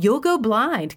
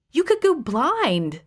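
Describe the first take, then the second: First: High, whiny mimicry of her warning; mocking imitation. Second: Slow, high, overdone warning; milk the danger, draw it out slowly; melodramatic. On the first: Husband throwing her warning back, whiny mimicry. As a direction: parody her line, sneering and higher. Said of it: "he mocked". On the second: Acted. Elaine warning her husband, slow and melodramatic. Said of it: "I said melodramatically".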